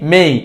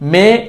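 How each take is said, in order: First: The vowel glides from 'e' into 'ee'. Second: The vowel is a single plain 'e' sound. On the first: The speaker calls it right. "সঠিকটা মেই" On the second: The speaker calls it wrong. "ভুলটা মে"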